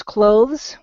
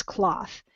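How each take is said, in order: First: "clothes" said slowly with a long oh vowel. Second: "cloth" with an open aw vowel, unvoiced th ending; short O. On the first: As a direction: hold the oh in "clothes", as in go. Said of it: "a long O sound". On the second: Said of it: "without that E at the end". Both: Shown as a demonstration.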